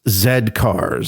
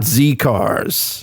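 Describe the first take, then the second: First: The letter is pronounced 'zed'. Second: The letter is pronounced 'zee'. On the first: This is the proper way to say it. The speaker calls it right. "it's Z cars" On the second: This is how it was said before. The speaker calls it wrong. "not Z cars"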